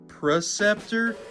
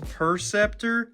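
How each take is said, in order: First: The name begins with the sound 'pre'. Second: The name begins with the sound 'per'. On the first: The speaker calls it wrong. "I have a really bad thing about saying Preceptor" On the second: The speaker calls it right. "even though it's Perceptor"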